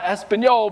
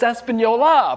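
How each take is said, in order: First: The name ends with a final consonant sound. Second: The name ends with a final vowel sound. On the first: The speaker calls it wrong. "not Espanol" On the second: The speaker calls it right. "there's an A on the end of that. It's Espanola"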